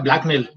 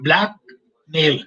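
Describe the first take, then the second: First: It is said quickly, run together as one word. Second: It is said slowly, as two separate words. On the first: The crime of extorting someone.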